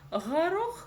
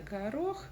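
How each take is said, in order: First: The first consonant is a soft raspy throat sound. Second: The first consonant is a plain hard g. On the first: This is a distorted way of saying the word. "горох вместо" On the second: This is the ordinary way of saying the word. "вместо горох"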